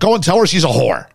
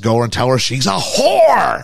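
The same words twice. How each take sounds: First: The word whore is not hit hard. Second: The word whore is hit hard.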